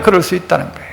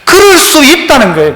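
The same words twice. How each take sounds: First: 그럴 repeated lower and much softer; soft echo. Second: Said in the usual way. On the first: Shown as a demonstration. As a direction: murmur 그럴 수 있다는 거예요 back to yourself.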